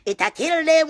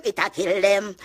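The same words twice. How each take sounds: First: High loud gloating cry; taunting shout. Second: Said in the usual way. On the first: Real, not acted. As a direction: crow it louder the second time. Repeated taunt.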